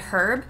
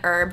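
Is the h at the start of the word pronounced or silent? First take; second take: pronounced; silent. First: The word starts with an h sound. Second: The word starts with a vowel, no h. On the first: This is how people say it everywhere else. "everywhere else in the world, you guys say herb" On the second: This is how people say it where the speaker grew up. "I have always grown up saying herb just in the area of the United States"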